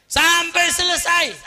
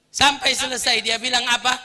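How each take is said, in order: First: Sampai selesai shouted high and slow; emphatic shout. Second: Said in the usual way. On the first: Shown as a demonstration. Preacher stressing the insults lasted to the end, shouting. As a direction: hammer Sampai selesai slowly and loud.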